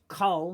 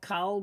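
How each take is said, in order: First: The vowel is a rounded 'o' sound. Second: The vowel is an open 'a' sound. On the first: The speaker calls it right. "but using the kamatz rule, it's kol" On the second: The speaker calls it wrong. "it's not kol"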